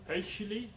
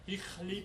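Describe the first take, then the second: First: An 'ei' vowel with a throaty 'ch' sound. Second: A short 'i' vowel with a throaty 'ch' sound. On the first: This is a later stage of the word's sound. "Hichli became Heichli" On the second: This is how the word was said in the Middle Ages. "highly would be pronounced Hichli"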